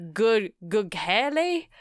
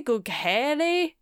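First: Gughele stretched in a mock Italian lilt; fake Italian accent. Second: Gughele drawn out slowly, Italian style; fake Italian accent. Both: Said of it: "a fake Italian accent on it".

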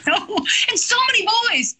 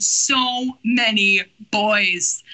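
First: High, quick, laughing dismay; high-pitched, hurried mock complaint; amused exclamation. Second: Very slow, comically overwhelmed; slow, weighty comic repeat; drawn-out emphasis. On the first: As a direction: rush it out high in comic exasperation. Mock dismay at voices to perform. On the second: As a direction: stretch out each word in mock dismay. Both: Real, not acted.

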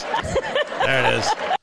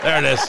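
First: Slow, soft, laughing through the words. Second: Said in the usual way. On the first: Shown as a demonstration. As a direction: drag it out while chuckling. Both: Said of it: "I'm not doing it right".

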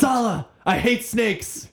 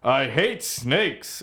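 First: High, slow, hammed-up British Indiana Jones line; mock British accent. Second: Slow, drawn-out hero growl of a line; gruff Indiana Jones. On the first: To Sala, complaining about snakes in a mock British accent. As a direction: drawl it out in a put-on British voice. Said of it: "yell at them in a British accent". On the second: Pretend. Copying the snake line in a slow movie-hero voice. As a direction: drag the words out like a tired adventurer. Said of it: "Is that how he talks?".

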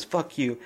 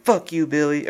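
First: Quiet retort. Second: Said in the usual way. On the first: Retold or imitated. Sid to Billy after his threat, a quiet retort. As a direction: let "Fuck you." drop to a soft, quiet retort. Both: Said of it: "Or she didn't say it like that".

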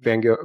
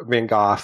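First: "Gogh" said like "go"; habitual pronunciation. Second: "Gogh" said like "goff"; corrected pronunciation. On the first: Slipping into the old habit, "Gogh" said as "go". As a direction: say "Van Gogh" as "van GO". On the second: Correcting himself mid-story, "Gogh" said as "goff". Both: Real, not acted. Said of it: "that's how you pronounce his name".

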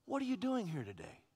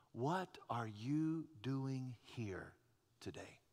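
First: Said in the usual way. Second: Hushed question. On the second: Shown as a demonstration. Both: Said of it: "same question God asked".

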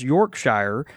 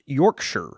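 First: "Yorkshire" with the ending said like the word "shire"; mispronounced Yorkshire. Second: "Yorkshire" with a reduced "shur" ending; British pronunciation. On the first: Reading a listener's correction, "Yorkshire" with a full "shire" ending. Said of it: "give you a correction on pronunciation". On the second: Reading a listener's correction, "Yorkshire" ending in a weak "shur". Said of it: "it is pronounced Yorkshire". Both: Shown as a demonstration.

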